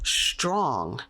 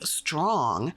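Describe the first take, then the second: First: It begins with a sh sound. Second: It begins with a plain s sound.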